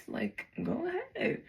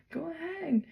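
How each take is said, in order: First: Taunting dare. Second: Taunting dare, falling. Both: Retold or imitated. Daring the strangers to stab.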